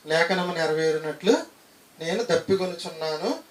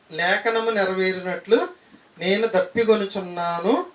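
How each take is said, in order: First: Said in the usual way. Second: Slow verse reading. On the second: Shown as a demonstration. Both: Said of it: "repeated verse reading".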